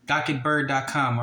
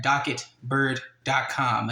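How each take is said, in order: First: Said in the usual way. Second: Slow, spelling out docket bird dot com; slow, deliberate web address read-out; slowed down for clarity. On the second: Shown as a demonstration. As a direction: say "docket bird dot com" slowly so viewers can type it. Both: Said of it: "And look up this case number".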